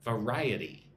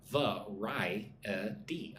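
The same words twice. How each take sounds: First: "Variety" as one word, stressed on RI; second-syllable stress. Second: "Variety" very slowly split into four syllables. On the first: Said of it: "put the emphasis on the second syllable". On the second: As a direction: say "Variety" one syllable at a time. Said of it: "Look at the word variety". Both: Shown as a demonstration.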